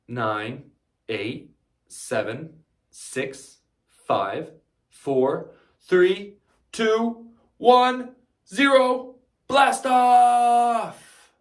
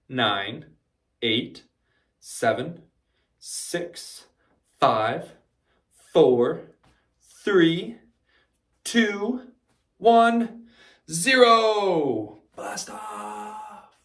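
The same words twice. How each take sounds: First: The countdown is said at a faster pace. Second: The countdown is said at a slower pace.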